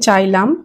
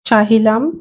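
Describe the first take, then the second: First: The middle h sound is dropped. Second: The middle h sound is pronounced. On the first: This is the colloquial spoken form. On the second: This is the full written form.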